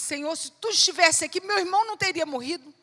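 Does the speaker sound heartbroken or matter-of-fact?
matter-of-fact. It sounds matter-of-fact, without grief.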